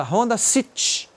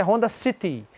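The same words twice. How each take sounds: First: "City" cut to seetch; swallowed final Y. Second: "City" with a clear ee after the t; voiced final Y. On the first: Retold or imitated. Teacher imitating how Brazilians name the car, swallowed Y in "City". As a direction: eat the last vowel of "City". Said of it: "ele come o Y". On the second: Shown as a demonstration. Teacher correcting the car's name, clear Y in "City". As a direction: say both syllables of "City". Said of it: "na verdade".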